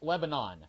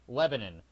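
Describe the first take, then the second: First: The name is said the standard, widespread way. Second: The name is said the local Tennessee way. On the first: It names the country. "the country is pronounced Lebanon" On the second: It names the city in Tennessee. "Anyone in Tennessee pronounces the city in Tennessee Lebanon"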